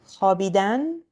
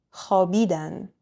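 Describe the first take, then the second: First: خوابیدن with the final -dan stressed and rising; last-syllable stress. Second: خوابیدن with the middle syllable bi stressed; next-to-last-syllable stress. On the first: Teacher comparing the infinitive, خوابیدن stressed on its last syllable. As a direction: say خوابیدن as khabiDAN. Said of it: "So compare these two, the infinitive". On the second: Teacher comparing the they form, خوابیدن stressed on bi. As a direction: punch the middle of خوابیدن, khaBIdan. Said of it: "Next to last syllable". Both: Shown as a demonstration.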